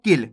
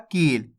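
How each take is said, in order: First: किल with a short, quick i; quick short vowel. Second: कील stretched on a long ee; drawn-out vowel. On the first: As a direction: keep the vowel of किल brief. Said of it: "किल में जल्दी से उच्चारण हो रहा है". (किल में छोटी इ, जल्दी से) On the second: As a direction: hold the ee of कील. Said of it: "यहाँ पे देखो खींच के उच्चारण हो रहा है". (कील को खींच के बोलें) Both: Shown as a demonstration.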